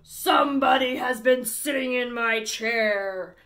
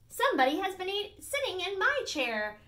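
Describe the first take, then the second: First: It is said in a deep, gruff voice. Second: It is said in a medium-pitched voice.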